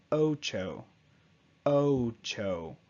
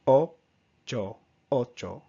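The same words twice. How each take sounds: First: "ocho" with a gliding English "oh-oo" tail; exaggerated English ocho. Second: "Ocho" with a short, pure O and no tail; clipped Spanish ocho. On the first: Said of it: "I'm exaggerating a little bit". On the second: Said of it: "you just want this cut off". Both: Shown as a demonstration.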